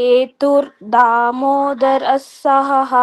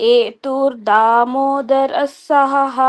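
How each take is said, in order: Both takes have the same delivery.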